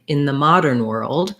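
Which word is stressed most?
modern. The strongest stress falls on modern. "primary stress on modern and secondary stress on world"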